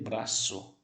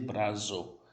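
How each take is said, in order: First: The middle consonant is a hissing s. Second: The middle consonant is a buzzing z. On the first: The speaker calls it right. "eu vou dizer braço" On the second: The speaker calls it wrong. "não tem som de Z... eu não vou dizer brazo"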